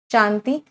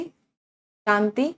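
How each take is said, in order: First: Said in the usual way. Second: Drawn-out shanti. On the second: Shown as a demonstration. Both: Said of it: "शांति के भी मुझे कुछ words बता दो".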